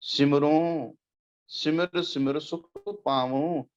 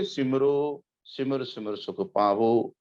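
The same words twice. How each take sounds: First: ਸਿਮਰੋ and ਪਾਵੋ ending in a nasal "on"; nasalised endings. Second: ਸਿਮਰੋ and ਪਾਵੋ ending in a pure oral "o"; no final nasal. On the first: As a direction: slowly recite ਸਿਮਰੋ, ਪਾਵੋ with nasalised final vowels. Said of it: "ਉੱਤੇ ਬਿੰਦੀ ਲੱਗੂਗਾ". (ਸਿਮਰੋ ਤੇ ਪਾਵੋ ਦੇ ਅੰਤ ਵਿੱਚ ਬਿੰਦੀ ਵਾਲੀ ਨਾਸਕੀ ਆਵਾਜ਼) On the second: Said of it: "ਜੇ ਤੁਸੀਂ ਇਹ ਕਹੋਗੇ". (ਸਿਮਰੋ ਤੇ ਪਾਵੋ ਬਿਨਾਂ ਬਿੰਦੀ, ਸਾਦੇ "ਓ" ਨਾਲ) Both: Shown as a demonstration.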